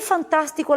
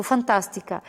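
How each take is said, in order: First: Said in the usual way. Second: "Fantástica" com a sílaba TÁS marcada e final caindo; tônica em fan-TÁS-tica. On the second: Shown as a demonstration. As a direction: destaque a antepenúltima de "Fantástica". ("Fantástica" pronunciada como esdrúxula, tônica no TÁS) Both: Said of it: "Por que fantástico leva acento?".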